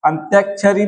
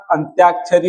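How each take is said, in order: First: अंत्याक्षरी with short middle vowel, "antyakshari"; wrong form. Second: अंत्याक्षरी with long middle "tyaa"; correct form. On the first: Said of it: "अंत्याक्षरी नहीं होगा". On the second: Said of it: "अंत्याक्षरी होगा". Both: Shown as a demonstration.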